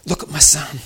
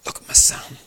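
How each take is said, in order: First: "Look at my son" high and full-voiced; firm urging. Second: "Look at my son" nearly whispered; hushed urging. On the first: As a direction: urge "Look at my son" in a raised voice. God's words, first full take. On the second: Retold or imitated. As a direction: repeat "Look at my son" in a breathy hush. God's words, repeated hushed.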